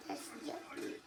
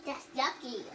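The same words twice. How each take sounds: First: Whispered disgust. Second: Said in the usual way. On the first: Real, not acted. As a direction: hush it under the breath. Repeated in a whisper.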